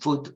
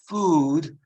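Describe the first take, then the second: First: The vowel is short and clipped. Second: The vowel is drawn out long. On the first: The speaker calls it wrong. "it's not food or mood" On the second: The speaker calls it right. "Very long"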